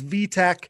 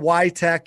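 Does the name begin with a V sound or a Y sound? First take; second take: V sound; Y sound. First: The name begins with a V sound. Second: The name begins with a Y sound. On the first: The speaker calls it right. "it's VTech" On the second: The speaker calls it wrong. "no more YTech, even though a lot of people here in the States have been saying YTech"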